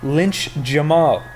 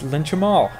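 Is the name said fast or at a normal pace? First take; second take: normal; fast. First: It is said at a normal, unhurried pace. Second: It is said very quickly, running together.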